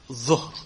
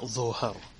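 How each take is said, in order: First: No vowel is heard between the final consonants. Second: A vowel is heard between the final consonants. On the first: The speaker calls it right. "you have to have the sukoon on the middle letter" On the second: The speaker calls it wrong. "not dhuhr"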